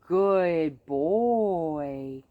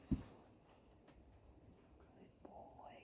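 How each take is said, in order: First: Louder, stretched praise for the dog; upbeat praise. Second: Whispered praise. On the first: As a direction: reward him with an audible good boy. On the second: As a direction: whisper good boy. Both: Shown as a demonstration. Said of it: "I'm gonna praise more quietly".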